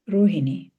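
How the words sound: The name is said with an Indian pronunciation. "but in India, it's pronounced Rohini"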